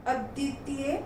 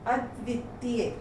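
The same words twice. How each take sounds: First: अद्वितीय with the "v" left out; mispronounced. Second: Said in the usual way. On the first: Shown as a demonstration. Teacher reads the error list, mispronounced अद्वितीय without "v". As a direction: say अद्वितीय as "aditiye". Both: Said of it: "व्यंजन संबंधी हैं".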